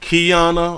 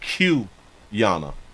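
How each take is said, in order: First: The name begins with the sound 'key'. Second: The name begins with the sound 'cue'. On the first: "but she say Key" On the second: "or is it Q Yana?"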